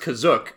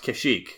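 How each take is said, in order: First: The name ends with an 'ook' sound. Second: The name ends with an 'eek' sound. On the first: This is how the name was first said. "At first appearance, it's pronounced Kazook in the Star Wars Holiday Special" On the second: This is how the name is commonly said now. "It has become pronounced Kashyyyk"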